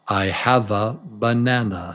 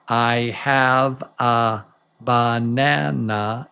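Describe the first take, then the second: First: The small unstressed vowels are reduced to schwas. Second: The small unstressed vowels are pronounced fully. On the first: The speaker calls it right. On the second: The speaker calls it wrong. "it's not"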